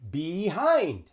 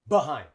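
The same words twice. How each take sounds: First: The first syllable has a long, full vowel. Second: The first syllable is short and reduced. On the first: The speaker calls it wrong. "we don't say that" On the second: The speaker calls it right. "We say behind"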